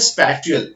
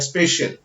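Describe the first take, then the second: First: The middle consonant is a clear t sound. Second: The middle consonant is an sh sound. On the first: The speaker calls it wrong. "इसीलिए मैं इसको स्पाटियल बोलता हूँ या स्पेटियल बोलता हूँ" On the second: The speaker calls it right. "Actually इसको pronounce करना है स्पेशल की तरह"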